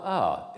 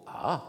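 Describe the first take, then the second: First: A held, gliding from high down to low. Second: A gliding from low up to high. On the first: Lecturer demonstrating the high-low tone once more, falling glide. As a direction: start the A high and let it fall. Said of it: "Haut bas". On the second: Lecturer demonstrating the low-high tone once more, rising glide. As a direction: begin the A low and lift it. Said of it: "le ton bas haut". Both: Shown as a demonstration.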